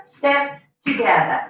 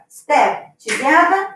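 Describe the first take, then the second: First: Said in the usual way. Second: Slow dance cue rising on together; slow counted cue. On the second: Shown as a demonstration. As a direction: step together, drawn out slowly with a rising end. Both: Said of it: "I'm just gonna step together".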